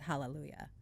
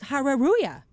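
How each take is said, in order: First: The word is said with L sounds. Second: The word is said with R sounds. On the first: "there is one word in English" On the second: "That's how it phonetically reads to a Korean"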